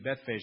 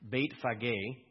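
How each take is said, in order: First: The name is said with an English pronunciation. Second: The name is said with its original pronunciation. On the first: "we would say that in English, that's how I pronounce it" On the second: "but it's Beit Phage"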